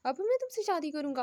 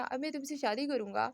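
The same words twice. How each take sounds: First: मैं shouted in a scornful falling echo; roaring repeat. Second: Indignant, first take; scoffing disbelief, stress on मैं; मैं stressed in a scoffing question; mock roar. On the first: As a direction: throw it back at her, hitting मैं hard. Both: A narrator's reading. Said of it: "Sikandar दहाड़ा था".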